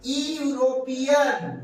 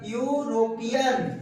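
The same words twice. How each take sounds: First: "यूरोपियन" drawn out slowly, starting "यू"; slow pronunciation demo. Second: "यूरोपियन" said slowly with a clear "यू" glide; slow pronunciation demo. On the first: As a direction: spell out "यूरोपियन" slowly, syllable by syllable. ("यूरोपियन" धीरे-धीरे उच्चारण) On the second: ("यूरोपियन" धीमे स्वर में दोहराएँ) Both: Shown as a demonstration. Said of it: "आप यहाँ भी पढ़े".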